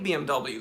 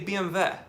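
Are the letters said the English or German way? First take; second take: English; German. First: The letters are said with English letter names. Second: The letters are said with German letter names. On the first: "they don't say B M W" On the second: "they say B M W"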